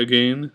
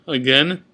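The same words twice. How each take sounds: First: "again" rhyming with rain; others' pronunciation. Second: Said in the usual way. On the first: Shown as a demonstration. Vlogger showing how some say it, long A pronunciation. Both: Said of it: "Some people say again".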